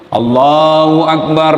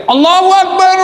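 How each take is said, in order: First: Chanted, low, slow, drawn-out takbir; chanted, intone it like an imam leading prayer; chanted, measured low prayer call; imam's chant. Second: High ringing prayer call; caller's cry. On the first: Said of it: "kalau Pak Imam sudah sebelum". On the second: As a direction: cry it out to the back rows. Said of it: "Ada yang teriak". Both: Acted.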